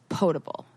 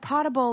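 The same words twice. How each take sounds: First: The first syllable sounds like 'boat'. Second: The first syllable sounds like 'pot'. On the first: Something that is safe to drink. The speaker calls it right. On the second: Something that can be put in a pot. The speaker calls it wrong.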